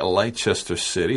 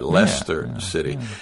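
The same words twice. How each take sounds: First: The name is said following its full spelling. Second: The name is said like the word Lester. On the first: "It looks like it's spelled like Leicester City. Some people say that" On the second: "it's pronounced like L-E-S-T-E-R"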